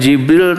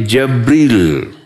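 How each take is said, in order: First: The first vowel is an 'i' sound. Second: The first vowel is an 'a' sound. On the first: "bukan Jibril" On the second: "Dengan difatahkan ja, Jabril"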